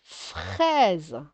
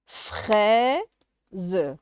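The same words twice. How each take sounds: First: Said in the usual way. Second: "Fraise" split into a long rising "frai" and a separate "ze"; syllable by syllable. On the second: Shown as a demonstration. Teacher sounding out syllables for a child, "Fraise" split in two. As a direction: stretch and break "Fraise" in two beats. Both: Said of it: "de faire les syllabes".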